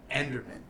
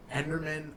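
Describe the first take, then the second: No difference in how they are said.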